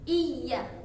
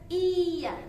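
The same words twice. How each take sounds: First: The 'ya' is hit with a short sharp jolt. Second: The 'ya' is stretched out long without a jolt. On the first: The speaker calls it right. "seperti ada enjotan" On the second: The speaker calls it wrong. "bukan dipanjangkan"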